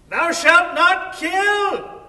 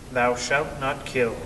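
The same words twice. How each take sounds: First: It is yelled loudly, as out a window. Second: It is read out in a calm voice.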